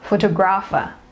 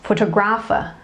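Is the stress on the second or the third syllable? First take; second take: third; third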